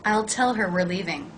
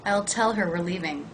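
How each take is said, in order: Both takes have the same delivery.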